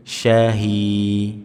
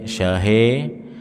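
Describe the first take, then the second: First: The final vowel sounds like 'i'. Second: The final vowel sounds like 'e'. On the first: The speaker calls it right. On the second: The speaker calls it wrong.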